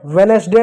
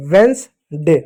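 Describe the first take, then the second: First: वेडनेसडे as ve-nes-day; three-syllable misreading. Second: वेडनेसडे as vens, day; two-syllable Wednesday. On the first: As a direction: keep the middle vowel in वेडनेसडे. (तीन हिस्सों में "वेडनेसडे") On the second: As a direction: drop the middle vowel of वेडनेसडे. (दो हिस्सों में "वेडनेसडे") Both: Shown as a demonstration. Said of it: "वेडनेसडे नहीं".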